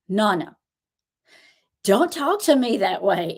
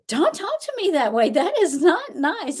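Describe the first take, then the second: First: Said in the usual way. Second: Put-on high, childish scolding voice, slowing at the end; imitating a toddler. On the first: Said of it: "He went". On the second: Grandma mimics her grandson's high scolding voice. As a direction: play a three-year-old telling off his Nana. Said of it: "He's like".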